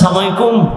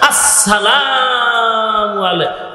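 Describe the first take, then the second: First: The opening syllables are dropped and run together. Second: Every syllable of the greeting is said clearly. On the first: It wishes a curse upon the listener. The speaker calls it wrong. "আমগো মুসলমান দিলে নষ্ট" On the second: It wishes peace upon the listener. The speaker calls it right. "সুন্দর করে সালাম দিতে পারে"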